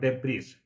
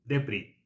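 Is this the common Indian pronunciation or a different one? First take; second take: Indian; different. First: It is said the common Indian way. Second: It is said differently from the common Indian way. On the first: The speaker calls it wrong. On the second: The speaker calls it right.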